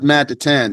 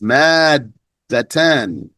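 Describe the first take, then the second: First: The middle d sound is short and single. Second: The middle d sound is held and doubled. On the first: The speaker calls it wrong. "It's not mad atan" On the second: The speaker calls it right. "It's mad datan"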